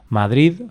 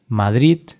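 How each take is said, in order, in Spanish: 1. La D final suena como una D. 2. La D final suena como una T. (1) "realmente lo correcto, si estás aprendiendo el idioma, es pronunciar Madrid" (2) "podría pronunciarse como sonido T"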